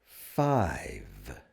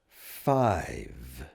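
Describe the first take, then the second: No difference in how they are said.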